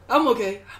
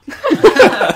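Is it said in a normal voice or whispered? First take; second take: normal; whispered. First: It is said in a normal voice. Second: It is whispered like an echo.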